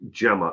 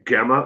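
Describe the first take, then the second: First: The name starts with a soft J sound. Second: The name starts with a hard G sound. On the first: The speaker calls it right. "It's pronounced Gemma" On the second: The speaker calls it wrong. "Like Guh?"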